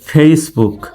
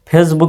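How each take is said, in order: First: The first vowel glides from e to i. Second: The first vowel is a plain e sound. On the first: The speaker calls it right. "বলবেন ফেসবুক" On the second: The speaker calls it wrong. "ফেসবুক না বলে"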